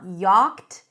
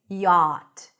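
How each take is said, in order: First: A 'ch' sound is heard in the middle. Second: No 'ch' sound is heard in the middle. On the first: The speaker calls it wrong. "we actually don't pronounce the C H. It's not yacht" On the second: The speaker calls it right. "It's yacht"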